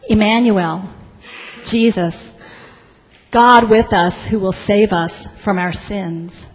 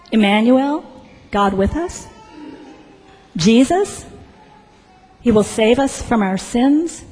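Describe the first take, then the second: First: Said in the usual way. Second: Questioning rise on each phrase; halting disbelief, each phrase lifting at the end; incredulous echo. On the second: Acted. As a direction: repeat it back as doubtful questions. Registrar echoes names back in disbelief.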